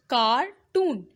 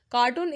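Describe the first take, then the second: First: Cartoon slowly split as car, toon; cartoon with a gap between syllables. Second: Said in the usual way. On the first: Shown as a demonstration. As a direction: sound out cartoon in two separate beats. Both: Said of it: "How you pronounce that word?".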